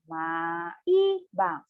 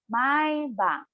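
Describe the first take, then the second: First: It is said slowly, one syllable at a time. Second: It is said at a normal, connected speed.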